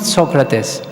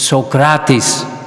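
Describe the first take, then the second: First: The name is pronounced the English way. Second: The name is pronounced the Greek way. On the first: The speaker calls it wrong. "the right pronunciation of his name is not Socrates" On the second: The speaker calls it right. "This is really the Greek pronunciation"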